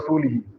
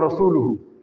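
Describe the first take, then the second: First: The word's final vowels are 'i' sounds. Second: The word's final vowels are 'u' sounds. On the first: God disowns both the idolaters and the Prophet. The speaker calls it wrong. "the vowel was changed and it was said wrongly" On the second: God and the Prophet both disown the idolaters. The speaker calls it right. "The Prophet has nothing to do with the mushrik"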